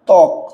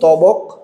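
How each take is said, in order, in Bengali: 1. 't'-এর পরে কোনো 'b' ধ্বনি উচ্চারিত হয় না। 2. 't'-এর পরে 'ba' ধ্বনি উচ্চারিত হয়। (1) "এখানে বগুলোর উচ্চারণ হয় না" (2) "এখানে কি আপনি বলেন তবক?"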